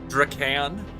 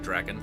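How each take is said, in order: First: The two vowels in the name sound different. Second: Both vowels sound alike, as in dragon. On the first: The speaker calls it wrong. "That's how I pronounce it. ... I'm doing two different pronunciations of the same vowel" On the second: The speaker calls it right. "It's probably Draken, like dragon"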